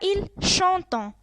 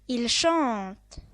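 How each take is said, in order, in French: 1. Le verbe se termine par une terminaison nasale prononcée. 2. Le verbe se termine par une terminaison muette. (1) "On ne dit pas il chantant" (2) "Même si avec ent, on dit il chante"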